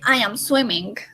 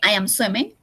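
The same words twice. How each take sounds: First: The final g is pronounced strongly. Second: The final g is pronounced softly. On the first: The speaker calls it wrong. "So we don't say I am swimming" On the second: The speaker calls it right. "We say I am swimming... That G is not really strong"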